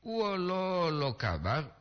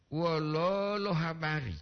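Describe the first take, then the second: First: Slow "Wololo kabar" with a rising end; contrasting wololo. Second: Slow "Wololo habari" with stretched O; long double o. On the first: (ucapkan "Wololo kabar" pelan dan naik) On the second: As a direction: draw out "Wololo" before "habari". (ucapkan "Wololo habari" dengan O panjang) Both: Shown as a demonstration. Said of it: "Beda wololo dengan wololo".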